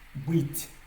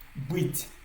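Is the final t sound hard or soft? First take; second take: soft; soft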